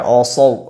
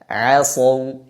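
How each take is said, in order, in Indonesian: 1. Vokalnya terdengar tebal, mengarah ke o. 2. Vokalnya terdengar tipis, a yang jelas. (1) "jangan dibaca asaw, o" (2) "tapi dibaca tipis, a"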